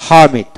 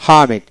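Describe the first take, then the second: No difference in how they are said.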